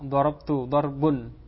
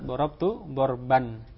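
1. Kata kedua diakhiri dengan vokal u. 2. Kata kedua diakhiri dengan vokal a. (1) "karena dia itu marfu'" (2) "sehingga yang benar"

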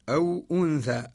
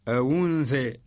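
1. الهمزة تُنطق بوضوح. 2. الهمزة تُحذف، وتُنقل حركتها إلى الساكن قبلها. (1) "يقرأ قالون" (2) "ينقل حركة الهمزة للساكن قبلها"

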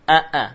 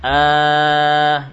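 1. Kedua vokal dimulai dengan hentian glotis penuh. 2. Hamza kedua menjadi satu vokal panjang. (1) "ini namanya mentahqiq hamzah, membaca hamzah muhakkak dari makhrajnya" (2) "ini namanya ibdal, mengganti hamzah dengan huruf mad"

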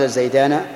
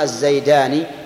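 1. تأتي بعد النون الأخيرة حركة الفتحة. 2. تأتي بعد النون الأخيرة حركة الكسرة. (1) "قل من بفتحه نطق" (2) "بعكس ذاك استعملوه"

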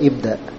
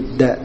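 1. Vokal awalnya dibaca sebagai bunyi tersendiri. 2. Vokal awalnya dihilangkan dan disambung dengan kata sebelumnya. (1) "tidak dibaca ibda" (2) "Tidak dibaca alifnya ya"

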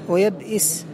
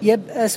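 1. الحركة بعد الهمزة هي i. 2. الحركة بعد الهمزة هي a.

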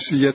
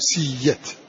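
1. صوت الياء مفرد، بلا همزة. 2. صوت الياء مضعّف، بلا همزة. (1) "تنقل حركة همزة إلى الياء وتحذف هذه الهمزة فنقول سيئة فقط" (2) "أضف إليها حكما آخر وهو الإضغام"

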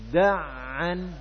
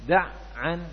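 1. Bunyinya bersambung terus di dalam kata. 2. Bunyinya terputus di tengah. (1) "Ini nyambung" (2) "Bukan da'an"

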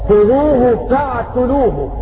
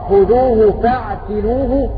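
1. التاء عليها ضمة. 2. التاء عليها كسرة. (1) "بضم التاء" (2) "بكسر التاء"

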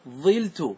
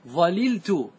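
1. تُحذف إحدى اللامين والحركة الأولى هي i. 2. تُنطق اللامان معًا، فتصير zalaltu. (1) "احذف اللام وتنقل حركة العين... انقلها إلى الفاء" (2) "هذا يسمى بلغة الإتمام، تفك الإدغام وتأتي باللامين"

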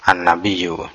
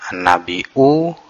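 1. Bunyi y ganda muncul sebelum vokal akhir. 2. Hamzah muncul sebelum vokal akhir. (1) "boleh dibaca tasdid" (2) "boleh dibaca hamzah"

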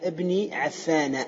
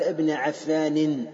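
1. ينتهي الاسم بـ -a قصيرة بلا نون. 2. ينتهي الاسم بـ -in مع نون.

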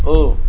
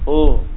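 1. Bibir kurang maju, terdengar seperti o. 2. Bibir kurang maju, terdengar seperti o.

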